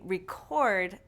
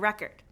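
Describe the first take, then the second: First: The stress is on the second syllable. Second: The stress is on the first syllable. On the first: It is used as a verb. "these two syllable verbs often stress the second syllable" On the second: It is used as a noun. "The nouns often stress the first syllable"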